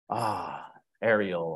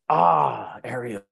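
First: It is said in a disappointed tone. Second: It is said in an angry tone.

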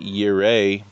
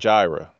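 First: The name begins with a Y sound. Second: The name begins with a J sound. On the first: The speaker calls it right. "It's actually Yireh" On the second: The speaker calls it wrong. "improperly pronounced divine name"

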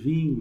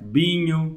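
First: It is said in a standard accent, starting with v. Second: It is said in a northern Portuguese accent, starting with b. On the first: "a malta diz vinho, mas os gajos do norte" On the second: "Eu sou do norte, olha o meu sotaque"

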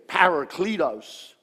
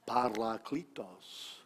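First: The R sound is not rolled. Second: The R sound is rolled. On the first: "usually as Americans we say" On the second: "I'm Italian, so I could roll my R's"

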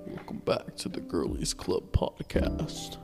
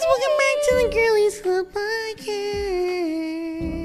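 First: The voice is pushed very deep. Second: The voice is pushed very high.

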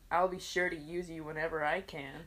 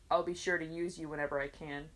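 First: The voice is expressive and suggestive. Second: The voice is flat and monotone. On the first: "It could be the way I said it" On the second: "say it just monotone"

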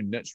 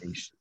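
First: It has a short vowel, rhyming with rich. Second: It has a long vowel, rhyming with quiche. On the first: The speaker calls it wrong. "I know niche rhymes with rich" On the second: The speaker calls it right. "but it's niche"

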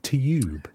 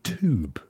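First: It is said 'tyoob' with a y sound. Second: It is said 'toob' with no y sound. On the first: This is the English way of saying it. "we pronounce it like as a Y after it" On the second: This is the American way of saying it. "you guys say tube. So you pronounce it T-O-O-B"

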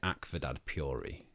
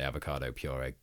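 First: Avocado is garbled, with its syllables altered. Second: Avocado is pronounced in its usual standard form. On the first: "She called it" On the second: "like I did"

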